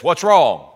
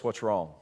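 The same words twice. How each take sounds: First: "What's wrong?" said out loud, blunt and carrying; loud, not quietly. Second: Softly asked, low and hushed "What's wrong?"; quiet take. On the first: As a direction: bark "What's wrong?" across the gym. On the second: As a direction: ask "What's wrong?" gently under the breath. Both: Retold or imitated. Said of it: "he doesn't say it quietly".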